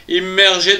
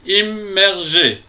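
First: Said in the usual way. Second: "Immergé" in three slow, separated beats; "Immergé" broken into distinct syllables. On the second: Shown as a demonstration. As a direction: say "Immergé" with a gap after each syllable. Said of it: "En trois syllabes aussi".

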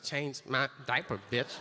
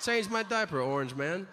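First: Low, soft mock rapper swagger; lightly voiced rapper, laid back and cocky; a hint of a rapper, low and soft. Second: A hint of a stately foreign leader, punching CHANGE; lightly voiced world leader scolding; mock formal head of state; foreign president. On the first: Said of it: "Rappers should wear them in videos and be like". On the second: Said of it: "The president of another country should tell ours".

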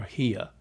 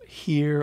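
First: "here" ending in an open "uh", no R; R dropped. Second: "Here" with the final R sounded; R kept. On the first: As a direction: say "here" non-rhotic, as "hee-uh". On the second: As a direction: say "Here" rhotic, drawn out to a full R. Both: Shown as a demonstration. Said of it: "do they keep the R or not".

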